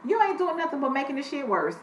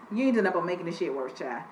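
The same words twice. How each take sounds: First: Said in the usual way. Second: Faster, softer repeat. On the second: Shown as a demonstration. Host dismissing the woman's excuses, fast and quieter. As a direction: rattle off "ain't doing nothing" fast and softer.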